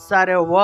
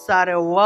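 No difference in how they are said.

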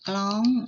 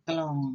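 First: The word is said with a high tone. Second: The word is said with a low tone. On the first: "เติมไม่ตรีกล้อง" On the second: "เสียงเอกกลอง"

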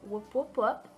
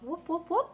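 First: It is said in the speaker's normal voice. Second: It is said in a put-on character voice. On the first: "I feel weird not saying it in his voice now" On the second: "I had to say it in his voice"

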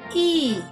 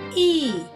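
First: The vowel is said like the name 'ee'. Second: The same.

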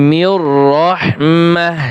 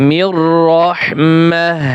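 No difference in how they are said.

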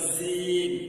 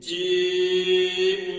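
First: The letter name is said without strong force. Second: The letter name is said with strong force. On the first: The speaker calls it wrong. "অনেকে ভুল করে বলে জিম, এই উচ্চারণটা হবে না" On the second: The speaker calls it right. "শক্তি হবে জিম জিম"

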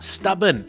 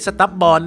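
First: The second syllable has a short, reduced vowel. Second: The second syllable has a full vowel, like 'born'. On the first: The speaker calls it right. "เราจะเปลี่ยนสระอเป็นสระเอ" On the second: The speaker calls it wrong. "ไม่ใช่"

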